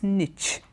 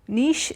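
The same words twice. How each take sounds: First: It is said with the alternative English pronunciation. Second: It is said with the French pronunciation. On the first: "some people also pronounce it as niche" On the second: "Niche is the right French pronunciation"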